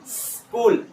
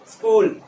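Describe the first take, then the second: First: The opening s is drawn out as a breath. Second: The opening s is brief and quick. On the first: "जैसे अभी तक बोलते आ रहे हो" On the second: "अब थोड़ा कम करो"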